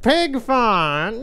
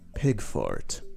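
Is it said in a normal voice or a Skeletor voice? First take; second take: Skeletor; normal. First: It is said in a goofy Skeletor voice. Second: It is said in his normal voice.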